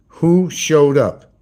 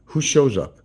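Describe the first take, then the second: First: "Who showed up?" stretched very slowly, louder; drawn-out teasing. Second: Said in the usual way. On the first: Real, not acted. Vlogger baiting his viewers to guess the visitor, slow and loud. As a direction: drag each word out for suspense. Repeats the question to tease.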